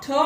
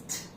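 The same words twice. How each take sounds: First: T hit hard and clipped. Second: T breathed out softly, almost silent; barely touch the t. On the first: Teacher showing the wrong hard t. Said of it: "It's not t". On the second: Teacher showing the right soft t. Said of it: "it's t". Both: Shown as a demonstration.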